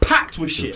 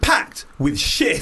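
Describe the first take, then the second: First: The stress is on packed. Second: The stress is on shit.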